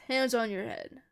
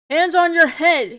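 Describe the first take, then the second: First: Said in the usual way. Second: Loud, raised-pitch soldier's command; shouted order. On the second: A narrator's reading. Soldier to detainees who must obey, shouted order. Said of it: "he shouts as we do so".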